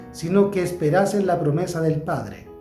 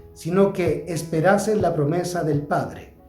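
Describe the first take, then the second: Both takes have the same delivery.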